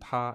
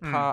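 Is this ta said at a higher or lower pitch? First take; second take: lower; higher. First: A level first tone at a lower pitch. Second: A level first tone at a higher pitch. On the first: "It's still first tone, but the second ta is slightly lower" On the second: "the pitch of the first ta is a higher pitch than the second ta"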